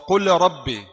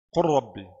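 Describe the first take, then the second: First: The l is pronounced separately before the r. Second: The l merges into a doubled r sound. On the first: The speaker calls it wrong. "Jangan baca wa qul rabbi" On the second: The speaker calls it right. "Tidak ada lam. Ra langsung"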